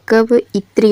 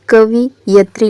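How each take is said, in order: First: कवइत्री said slowly as ka-va-i-tri; slow it down, कवइत्री with VA then a separate I; कवइत्री carefully split, "kav-itri"; correct form. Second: कवियत्री said wrongly as ka-vi-ya-tri; कवियत्री read as misspelt, "kavi-yatri"; misspelt form. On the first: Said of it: "ये इसका सही रूप होगा". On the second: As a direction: say कवियत्री with VI then YA in the middle. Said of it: "ये शुद्ध रूप नहीं है". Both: Shown as a demonstration.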